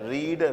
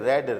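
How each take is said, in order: First: The vowel is long, like 'reed'. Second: The vowel is short, like 'red'. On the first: It is the present form of the verb. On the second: It is the past form of the verb.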